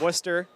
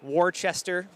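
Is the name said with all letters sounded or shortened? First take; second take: shortened; all sounded. First: Several letters of the name are left silent. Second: Every letter of the name is sounded out. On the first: The speaker calls it right. "you don't pronounce like any letters" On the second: The speaker calls it wrong. "No, nope"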